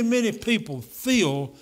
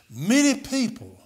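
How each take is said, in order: First: Many drawn out and slow; slow down and press hard on many; stress on many, slowed. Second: Many stretched and leaned on; stress on many. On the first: Preacher hammering home many to the church. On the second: Preacher stressing many to the church. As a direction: lean on the word many to make them hear it. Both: Shown as a demonstration. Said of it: "I'm talking about many".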